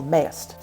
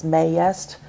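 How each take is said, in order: First: "mayest" squeezed into a single "mayst"; one syllable. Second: "mayest" drawn into "may-est", rising at the end; two syllables. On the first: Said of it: "it's one syllable". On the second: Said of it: "draw it into two syllables". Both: Shown as a demonstration.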